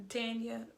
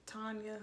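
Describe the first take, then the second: First: Tanya said with a flat a as in tan, TAN-ya; Tanya, first vowel like cat, quick; first try at the name. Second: Tanya said with an open ah, TAHN-ya, dropped to near a murmur; Tanya, first vowel like father, softer; corrected name. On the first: Naming the next couple, first take of Tanya with a cat vowel. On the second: Correcting herself on the couple's name, Tanya with an ah vowel. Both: Shown as a demonstration.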